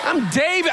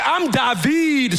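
First: Said in the usual way. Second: David drawn out as da-VEED; slow down and land hard on the end of David; emphasis on second syllable. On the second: Shown as a demonstration. David announcing himself to his father, David stressed as da-VEED. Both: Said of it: "put this emphasis on this syllable".

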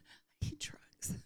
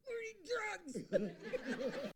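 First: Slow, feeble whisper; weak, out of breath. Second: High, very drawn-out strained plea; desperate grab. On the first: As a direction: whisper it as if too drained to speak. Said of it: "I'm barely speaking". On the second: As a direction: strain it out slowly, begging through labor pain. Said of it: "I grab him by the shirt". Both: Retold or imitated.

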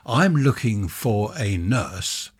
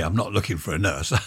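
First: Said in the usual way. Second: Laughing. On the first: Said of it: "Well, not really". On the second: Real, not acted. Correcting a funny slip.

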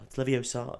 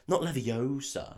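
First: "Leviosa" with a heavy final "ah"; stress on SA. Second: "Leviosa" with a long, stressed O. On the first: Podcaster correcting the meme, "Leviosa" stressed on SAH. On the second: Podcaster correcting the meme, "Leviosa" stressed on OH. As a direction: say "Leviosa" as levi-OH-suh. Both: Shown as a demonstration. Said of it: "It's the other way around".

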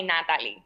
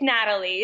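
First: "Natalie" said the Spanish way; Puerto Rican pronunciation. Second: Said in the usual way. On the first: Shown as a demonstration. Guest showing what people call her, Spanish pronunciation. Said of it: "born and raised in Puerto Rico". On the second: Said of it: "It's Natalie".

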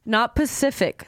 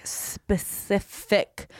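First: "Pacific" without the opening S sound; wrong word shown. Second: "Specific" drawn out slowly, syllable by syllable; careful pronunciation. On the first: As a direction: say "Pacific" plainly, as the mistaken word. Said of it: "you need to make it very specific". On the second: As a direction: slowly spell out "Specific" by sound, leading S clear. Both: Shown as a demonstration.

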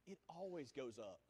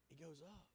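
First: Said in the usual way. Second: Soft, low fading repeat; quiet echo; hushed. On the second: Real, not acted. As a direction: let it fade to a hush.

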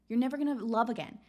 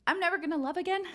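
First: Lightly voiced nagging inner critic, quick; a hint of the mean voice in your head; harsh inner critic. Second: Higher, incredulous rising echo of the critic; mocking disbelief. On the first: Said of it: "your mind starts saying". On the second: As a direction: throw the line back as ridiculous. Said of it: "challenge it".

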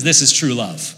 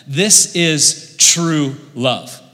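First: Said in the usual way. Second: "This is true love" drawn out slowly, each word weighed; slow emphasis. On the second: Real, not acted. Preacher telling friends about love, slow and weighty.

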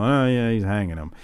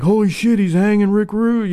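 First: Deadpan. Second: Put-on excited kid. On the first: Retold or imitated. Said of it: "I'd be seventeen at this point". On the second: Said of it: "you're like".

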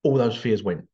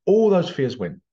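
First: Said in the usual way. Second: ALL punched, higher and louder; emphatic repeat. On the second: Shown as a demonstration. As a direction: hit the word All hard the second time.

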